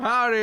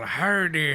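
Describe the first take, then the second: First: It is said in a normal voice. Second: It is said in a pirate accent.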